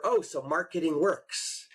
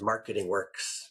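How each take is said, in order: First: "Oh, so marketing works" drawn out with a rise; dawning realization. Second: "Marketing works" low and slow; matter-of-fact confirmation. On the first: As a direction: say "marketing works" slowly, lifting at the end. Retold realization, answered by echo. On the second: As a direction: echo "Marketing works" lower, as a settled fact. Retold customer echoes it back. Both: Retold or imitated.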